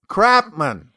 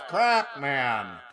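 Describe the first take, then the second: First: The voice sounds plain and direct, without effects. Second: The voice sounds processed, like an intercom announcement.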